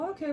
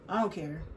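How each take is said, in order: First: It is said in a warm, affectionate tone. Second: It is said in a cold, dismissive tone. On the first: The speaker is happy to go along with anything. The speaker calls it right. "You can say the same thing. It's just how you say it" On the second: The speaker seems uninterested and disrespectful. The speaker calls it wrong. "it's not what you say, it's how you say it"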